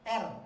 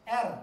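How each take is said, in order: First: The r is light, with the tongue back relaxed. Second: The same.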